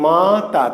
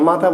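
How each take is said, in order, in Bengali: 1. শব্দটি অক্ষরের মাঝে বিরতি দিয়ে ভাগ করে বলা হয়। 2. শব্দটি একটানা, একবারে বলা হয়। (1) "বলতে হবে মা তা" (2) "একবারে বলা যাবে মাতা"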